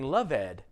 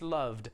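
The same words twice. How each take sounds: First: The word is said as two syllables. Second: The word is said as one syllable. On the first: The speaker calls it wrong. "It looks like I'm saying loved, but no, no, no" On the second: The speaker calls it right. "It's just loved"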